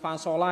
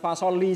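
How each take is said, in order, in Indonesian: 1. Kata ini berakhir dengan vokal a. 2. Kata ini berakhir dengan vokal i. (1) "bukan fasola ya" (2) "bukan fasoli juga"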